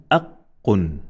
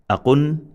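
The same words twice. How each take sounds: First: "aqqun" with the q held double, a catch before "qun"; emphasized consonant. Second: "Aqun" with a quick single q, higher pitched; no emphasis. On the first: Teacher modelling emphasis, "aqqun" with doubled q. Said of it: "When there is emphasis". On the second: Teacher modelling no emphasis, "Aqun" with undoubled q. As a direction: go straight through the q in "Aqun". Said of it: "no emphasis". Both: Shown as a demonstration.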